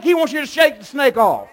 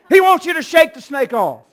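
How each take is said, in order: First: Loud, high preacher's shout; shouted preaching. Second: Even higher, ringing preacher's shout; louder shouted repeat. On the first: Preacher shouting to the church to shake it off, loud. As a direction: hit the climax of the sermon. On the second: Preacher driving the point home to the congregation, higher shout. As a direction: repeat it and push it further. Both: Acted.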